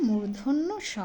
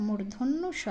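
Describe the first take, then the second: The two takes are said the same way.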